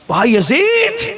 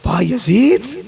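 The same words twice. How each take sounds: First: High, slow, stretched call of the name; long drawn-out call. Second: A mother's raised call of her son's name. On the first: Mother calls Bayazid again through the closed door, long drawn-out high call. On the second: Old mother calls her long-lost son through the door, calling out. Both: Acted.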